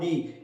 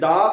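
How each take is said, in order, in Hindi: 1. यह शब्द लंबे 'ee' स्वर पर खत्म होता है। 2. यह शब्द छोटे 'uh' स्वर पर खत्म होता है। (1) "और दी" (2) "दो तरह से प्रोनाउंस किया जा सकता है, एक दा"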